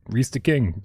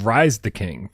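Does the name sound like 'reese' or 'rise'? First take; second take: reese; rise. First: The name is said like the name Reese. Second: The name is said like the word rise. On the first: The speaker calls it right. "now that I can pronounce your name properly" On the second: The speaker calls it wrong. "I didn't know that's how you pronounced it. I've been saying Rise the King"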